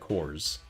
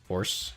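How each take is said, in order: First: The name is said like the word whores. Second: The name is said like the word horse. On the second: "Grace pronounced it horse, like horse, just horse"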